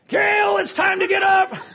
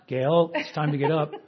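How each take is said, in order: First: It is spoken loudest of all. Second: It is spoken louder than before. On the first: An urgent call to wake up. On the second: A firmer reminder to wake up.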